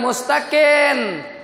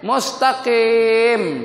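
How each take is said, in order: First: The final consonant is an open n sound. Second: The final consonant is m with lips closed. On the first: The speaker calls it wrong. "Dia bukan mustaqim" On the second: The speaker calls it right.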